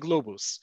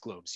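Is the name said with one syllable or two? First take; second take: two; one. First: The name is said with two syllables. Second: The name is said with one syllable. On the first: "You will hear people say globus" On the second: "that's why I'm pronouncing it as globes"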